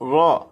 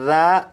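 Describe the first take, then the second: First: The R is heavy and thick. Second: The R is light and thin. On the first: The speaker calls it right. "रा को पुर यानी मोटा पढ़ेंगे" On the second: The speaker calls it wrong. "इसे इस तरह से नहीं पढ़ेंगे"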